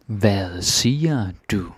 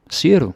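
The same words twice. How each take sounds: First: "Hvad siger du?" said slowly, each word apart; slow teaching repeat. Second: "Siger du?" shot out high and loud; startled question. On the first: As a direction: model it slowly for learners. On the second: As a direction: react as if you misheard. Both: Shown as a demonstration.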